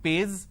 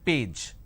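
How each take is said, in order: First: It ends with a z sound. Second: It ends with a j sound. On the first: The speaker calls it wrong. "lot of people replace the J with a Z" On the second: The speaker calls it right. "it is page"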